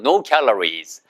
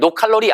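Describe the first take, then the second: First: Calories is said with English pronunciation. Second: Calories is said with Korean-style syllables. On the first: The speaker calls it right. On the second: The speaker calls it wrong.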